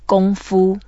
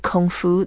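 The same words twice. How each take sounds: First: It is said with a native Mandarin pronunciation. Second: It is said with a Western English pronunciation. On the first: The speaker calls it right. "We have to say 功夫" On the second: The speaker calls it wrong. "don't say 功夫, that's Western way of saying it"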